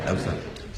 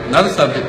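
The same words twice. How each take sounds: First: Another subject breathed out with no voice, much softer; whispered. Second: Another subject tossed off louder through a laugh. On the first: Dropping the joke about his wife, he whispers it away. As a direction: let it fade to a whisper. Drops topic, fading to whisper. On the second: Joking about his wife, he laughs louder as he drops it. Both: Real, not acted.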